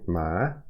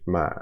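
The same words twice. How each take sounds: First: The pitch rises from middle to high. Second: The pitch stays low in the voice. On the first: "two is rising ma" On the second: "low is uh, kind of, it's a low pitch"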